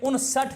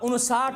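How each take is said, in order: First: The second vowel is a short 'a'. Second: The second vowel is a long 'aa'. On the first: The speaker calls it right. "यह उनसठ है।" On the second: The speaker calls it wrong. "आप उनसाठ बोल देते हो"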